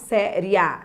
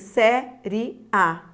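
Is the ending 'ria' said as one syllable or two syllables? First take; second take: one syllable; two syllables. First: The ending 'ria' is said as one syllable. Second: The ending 'ria' is split into two syllables. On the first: "isso aqui é um ditongo crescente" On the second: "Você pode transformar esse ditongo crescente em hiato"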